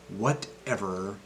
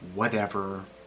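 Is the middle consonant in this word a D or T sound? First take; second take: T; D. First: The middle consonant is a crisp T sound. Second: The middle consonant is a soft D sound. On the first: The speaker calls it wrong. "as a normal T" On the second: The speaker calls it right. "It turns into a D sound"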